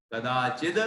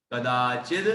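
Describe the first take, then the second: No difference in how they are said.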